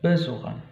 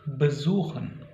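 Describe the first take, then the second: First: The stress is on the first syllable. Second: The stress is on the second syllable. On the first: The speaker calls it wrong. "bukan besuchen" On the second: The speaker calls it right. "tidak mendapat penekanan pada suku kata pertama"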